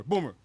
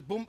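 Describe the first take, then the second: First: Said in the usual way. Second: "Boom" with the name cut short and the rising end stopped. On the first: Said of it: "He called me Boomer". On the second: Retold or imitated. Apologizing boss unable to finish the name, halting "Boom". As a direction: stumble so the name stops at "Boom". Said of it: "He couldn't even say Boomer".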